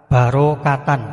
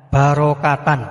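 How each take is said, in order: No difference in how they are said.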